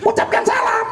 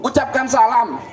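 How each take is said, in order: First: High puppet voice repeating the order; puppet parroting. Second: Said in the usual way. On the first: Acted. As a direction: copy the teacher as a silly puppet. (suara boneka tinggi meniru) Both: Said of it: "kok ucapkan salam".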